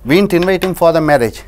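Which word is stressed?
invite. The word 'invite' carries the stress. We only casually called him. "சும்மா கூப்பிட்டோம்"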